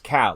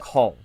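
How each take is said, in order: First: The vowel sounds like the one in 'pal'. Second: The vowel sounds like the one in 'all'. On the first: The speaker calls it right. "It's Cal, like C A L" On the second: The speaker calls it wrong. "pronounce it with an O. They'll say like call"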